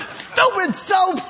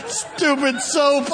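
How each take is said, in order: First: Slow laughing exclamation, higher pitch. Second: Slow, wheezing laughter over the words; laughing hard. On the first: Preacher cracking up over the soap scheme, laughing. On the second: Preacher repeating the punchline, helpless with laughter. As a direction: choke it out through laughter. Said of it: "Boy, I'm crying". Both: Real, not acted.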